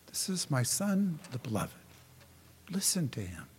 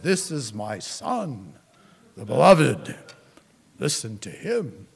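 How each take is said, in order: First: The voice is soft, quiet and reflective. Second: The voice is deep, loud and booming. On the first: The words are a gentle, thoughtful invitation. "a quiet, reflective voice" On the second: The words are a forceful command from above. "a deep, booming voice"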